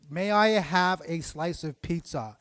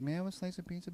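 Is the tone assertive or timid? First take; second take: assertive; timid. First: It is said firmly and meaningfully. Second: It is said meekly and too quietly.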